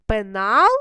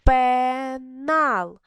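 First: Пенал as a question, rising sharply on НАЛ; querying Пенал, lifted at the end; questioning intonation. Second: ПЕНАЛ drawn out as a long ПЕ, then НАЛ; slow, separated beats on Пенал; split into syllables. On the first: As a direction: ask Пенал, with the second syllable louder and rising. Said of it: "інтонацію питальну". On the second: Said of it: "Поділіть на склади". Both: Shown as a demonstration.

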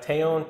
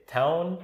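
First: Taon said as spelt, TAY-on; alternative pronunciation. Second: TOWN said like the English word town; pronounced as town. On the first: Offering co-host another way to say it, Taon as spelt. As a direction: sound out "Taon" with a long A. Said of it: "however you wanna say it". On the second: Explaining to co-host how he says it, "town" pronunciation. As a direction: say "town" as one word, like a city. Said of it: "I say town". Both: Shown as a demonstration.

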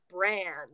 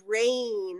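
First: "bran" with a short "a", as in ran; short vowel. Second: "brain" with a long "ay" vowel. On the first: Co-host showing the wrong reading of a product name, short-vowel "bran". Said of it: "and not bran". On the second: Co-host explaining the umlaut in a product name, long-vowel "brain". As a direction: stretch the "ay" in "brain". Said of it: "they're, like, long vowels". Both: Shown as a demonstration.

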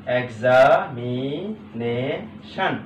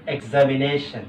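First: "examination" very slowly split into drawn-out syllables. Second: Said in the usual way. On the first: Shown as a demonstration. Teacher dividing a long word for students, syllable by syllable. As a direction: break "examination" into its parts, stretching each. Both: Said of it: "ভাগ করা অত্যন্ত".

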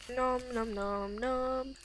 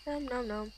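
First: "Nom nom nom nom" drawn out slowly. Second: Said in the usual way. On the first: Shown as a demonstration. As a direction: stretch each "nom" long and slow.

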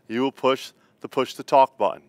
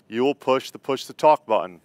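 The two takes are said the same way.

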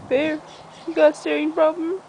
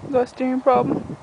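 First: Higher-pitched challenge to the dog; mock confrontation. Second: Said in the usual way. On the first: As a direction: playfully confront a pet, pitched up. Challenges her dog a second time.

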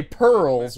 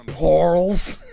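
First: Said in the usual way. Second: Pearls said slowly as "porls". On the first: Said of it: "pronounce all things with an er sound". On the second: Shown as a demonstration. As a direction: draw out pearls with an OR vowel, Gru-style. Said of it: "an er sound as or".

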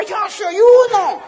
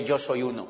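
First: Very high, loud, drawn-out cry; mock crowd shout. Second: Said in the usual way. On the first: Excited crowd answering the diamond, long high mock scream. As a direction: scream it like a convention fanatic. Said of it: "la gente levantaba los pies y las manos y decía". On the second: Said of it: "Yo nunca grité".

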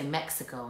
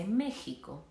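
First: Mexico with an English x sound, MEK-si-ko. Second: Mexico with a Spanish j sound, ME-hi-ko. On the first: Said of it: "People say Mexico in English". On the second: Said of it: "You can say Mexico in Spanish". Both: Shown as a demonstration.

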